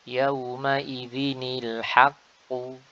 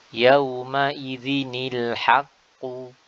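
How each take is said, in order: Both takes have the same delivery.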